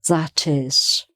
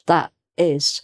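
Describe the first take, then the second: First: The T is clear and joined to 'is'. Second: The T is cut off in the throat. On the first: The speaker calls it right. "join it up with the next word" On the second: The speaker calls it wrong. "they kind of break it up. it's a kind of in the throat"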